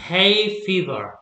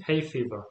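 First: Hay stressed, fever lighter, said slowly; stress on first word. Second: Said in the usual way. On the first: Shown as a demonstration. Teacher shows first-word stress to student. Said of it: "el acento lo lleva en la primera". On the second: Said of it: "repeats the example".

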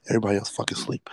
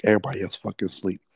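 First: Quick hushed whisper so nobody wakes; hushed, hurried whisper. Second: Said in the usual way. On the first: Shown as a demonstration. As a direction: drop to a fast whisper.

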